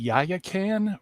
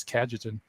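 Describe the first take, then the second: First: Yayakan said as "YAH-ya-kan", tentatively; another debater's pronunciation. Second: Cajetan said as "KAJ-eh-tan"; Cajetan, an anglicized KAJ-eh-tan with j; usual pronunciation. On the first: Retold or imitated. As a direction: say Yayakan slowly, unsure of the sounds. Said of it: "how did he pronounce it?". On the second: Shown as a demonstration. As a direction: say Cajetan with a soft j sound. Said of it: "I've always heard it as".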